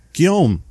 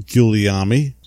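First: "Guillaume" said as two syllables, ghee-ohm; "Guillaume" in two syllables with a silent ending; two-syllable pronunciation. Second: "Guglielmi" sounded out syllable by syllable; "Guglielmi" slowly, as if misreading a French name; naive spelling pronunciation. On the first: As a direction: say "Guillaume" the French way, ghee-YOHM. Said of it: "Guillaume is two syllables". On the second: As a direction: read "Guglielmi" with every vowel voiced. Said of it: "I read that and I saw". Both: Shown as a demonstration.

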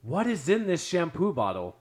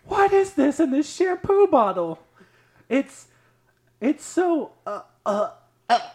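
First: Retold uncle demanding. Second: Very high, loud yell breaking into retches; hammed-up horrified shriek with gags; gagging shriek. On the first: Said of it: "hear my uncle go". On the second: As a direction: imitate someone screaming and gagging in disgust. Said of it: "you just hear her gagging".

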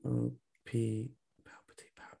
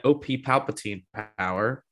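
First: Hushed whisper, much softer. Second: Said in the usual way. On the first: Pretend. Host repeating the witch's power nickname, mock-dramatic whisper.

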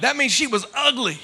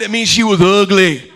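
First: Said in the usual way. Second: Loud punchline. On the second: Shown as a demonstration. Preacher repeats the joke to the congregation, loud and laughing. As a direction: belt it out with a laugh.

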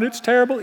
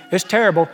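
First: Higher, whining on terrible; mock complaint. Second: Said in the usual way. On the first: Preacher mimics a moaning church member, whiny. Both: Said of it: "I agree with you".

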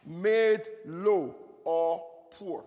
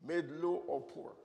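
First: Drawn out meaning; slow and deliberate. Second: Much softer repeat; quiet echo. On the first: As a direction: spell out the meaning slowly. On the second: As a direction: murmur it back. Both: Shown as a demonstration. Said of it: "And Lamech means".

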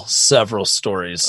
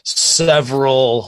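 First: Said in the usual way. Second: Whispered several, breathy and drawn out. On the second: Shown as a demonstration. Whispered take before plain repeat.

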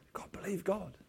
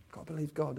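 First: A soft unvoiced whisper; whispered plea. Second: Said in the usual way. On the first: Real, not acted. Preacher urging listeners to believe God, whispering. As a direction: breathe it to yourself like a prayer.

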